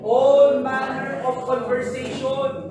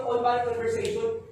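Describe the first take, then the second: First: "All" drawn out slow and loud; "All" stretched, the phrase said slowly and much louder; stress on all. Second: Said in the usual way. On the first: Shown as a demonstration. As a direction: lean hard on "All manner of conversation". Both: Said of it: "Ano ibig sabihin ng all".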